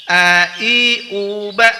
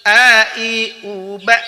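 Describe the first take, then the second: The two takes are said the same way.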